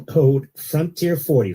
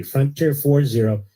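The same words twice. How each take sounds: First: Slow promo code. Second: Slow repeated code. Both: Shown as a demonstration. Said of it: "repeats the promo code slowly".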